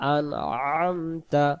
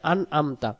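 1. মাঝের ব্যঞ্জনটি গলা চেপে উচ্চারণ করা হয়। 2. মাঝের ব্যঞ্জনটি সাধারণ হামজা। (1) "গলাতে চেপে পড়বো আইন অক্ষর হলকের মধ্য থেকে একটু চেপে" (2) "এটাও হামজা হবে"

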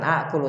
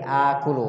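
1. Vokal pertama pendek. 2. Vokal pertama panjang. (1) "Jadi bukan akulu" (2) "tapi akulu ... dipanjangkan ... dua harakat"

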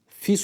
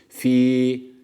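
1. Ünlü kısa kesilerek okunuyor. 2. Ünlü uzun tutularak okunuyor. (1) "fi suduri diye bir okuma olabiliyor" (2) "Yani uzatıyoruz. Meddi tabii var burada"

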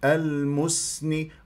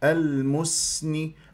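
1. تسترخي الشفتان قبل السين. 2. تسترخي الشفتان قبل السين.

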